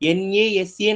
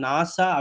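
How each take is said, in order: First: Each letter is said separately, one by one. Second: The letters are blended and said as one word. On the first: The speaker calls it wrong. "என்ஏஎஸ்ஏ நம்ம சொல்ல மாட்டோம்" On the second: The speaker calls it right. "நாசா அப்படின்னு சொல்றோம்"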